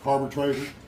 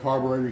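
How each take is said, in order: First: It is said in an old-timer hillbilly accent. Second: It is said in a standard accent.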